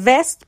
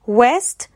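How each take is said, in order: First: "وست" pronounced vest, with a V; V sound. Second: "west" with rounded-lip W; W sound. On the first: Teacher repeating first word, "وست" said with V. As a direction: teeth touch the lip to start "وست" as vest. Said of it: "وی ای اس تی". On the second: Teacher repeating second word, "west" said with W. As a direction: round the lips into "west", rising at the end. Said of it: "W E S T". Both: Shown as a demonstration.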